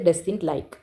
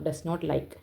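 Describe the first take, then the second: First: The negative is contracted to doesn't. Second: The word not is said in full. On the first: "pronounce ചെയ്യേണ്ടത്" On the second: "ഡസ് നോട്ട് എന്നാണ് അർത്ഥം"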